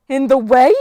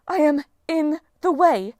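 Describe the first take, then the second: First: Loud, high, indignant echo rising at the end; offended goddess, sharply incredulous; outraged question. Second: Slow, high, loud, spaced words falling at the end; affronted goddess, drawn-out and imperious; indignant statement. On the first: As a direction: throw it back as an affronted question. Struck goddess answers in outrage. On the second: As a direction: spell out the offence word by word. Outraged goddess straightens, repeats it. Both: Acted.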